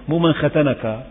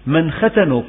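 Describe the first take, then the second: First: ختنك with the nun carrying fatha, "khatanaKA"; wrong case ending. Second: ختنك with the nun carrying damma, "khatanuKU"; correct case ending. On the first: (نطق ختنك بفتح النون خطأً) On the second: (نطق ختنك بضم النون) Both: Shown as a demonstration. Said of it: "بضم النون".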